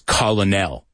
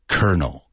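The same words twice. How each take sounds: First: It is pronounced as it is spelled. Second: It sounds exactly like the word kernel. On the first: The speaker calls it wrong. "if you pronounce it the way it's written" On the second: The speaker calls it right. "They say colonel"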